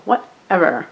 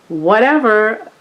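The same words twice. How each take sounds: First: Put-on falling Valley girl "whatever". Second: Slow, drawn-out airy "whatever". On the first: Shown as a demonstration. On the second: Real, not acted. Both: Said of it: "I sound like a Valley girl".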